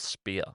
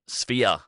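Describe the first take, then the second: First: It begins with a plain p sound, like spear. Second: It begins with an f sound, like sphere. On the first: The speaker calls it wrong. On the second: The speaker calls it right.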